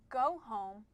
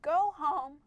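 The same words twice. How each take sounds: First: Said in the usual way. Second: Higher, firmer order; urgent command. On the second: Shown as a demonstration. Reader showing one of two ways to read a command, urgent. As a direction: give it as an urgent exclaimed order. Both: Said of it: "they can be read two different ways".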